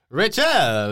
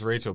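First: The name is said in an exaggerated foreign accent. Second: The name is said in a plain, normal accent. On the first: "you're not doing the cartoonish accents" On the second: "Of course it's Rachel"

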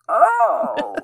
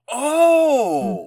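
First: It is said in a surprised Muppet voice. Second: It is said in a natural, mild voice.

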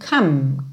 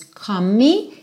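First: The word ends cleanly on the M sound. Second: An extra vowel sound follows the final M. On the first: The speaker calls it right. "e sim come" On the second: The speaker calls it wrong. "você nunca diz come me"

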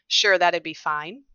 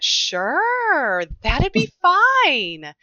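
First: The pitch stays flat with short vowels. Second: The pitch moves widely with longer vowels. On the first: This is a typical male speaking pattern. "a very reduced pitch range across a phrase" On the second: This is a typical female speaking pattern. "longer vowels. You're going to get pitch variability"

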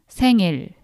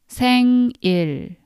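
First: The word is said fast. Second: The word is said slowly.

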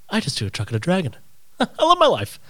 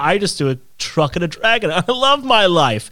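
First: It is said quietly and softly, to oneself. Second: It is said loudly and showily, with a laugh. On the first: He is saying it to himself. The speaker calls it right. "if he kind of said it to himself" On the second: He is announcing it to everybody. The speaker calls it wrong. "instead of saying it out loud to everybody"

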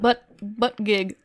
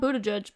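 First: The name sounds like the two words butt gig. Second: The name does not sound like butt gig. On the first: The speaker calls it right. "it's, like, butt gig" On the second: The speaker calls it wrong. "It's not Buttigieg"

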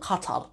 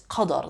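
First: The middle consonant is a t sound. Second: The middle consonant is a d sound. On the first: The speaker calls it wrong. "It's not Laylatul Qatar" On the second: The speaker calls it right. "It's Qadr, the night of power"

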